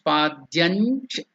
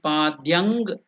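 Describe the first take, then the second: First: The word ends with a palatal nasal sound. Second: The word ends with an ng sound. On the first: The speaker calls it right. "the stress has to be on the cha" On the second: The speaker calls it wrong. "It should not be padyang"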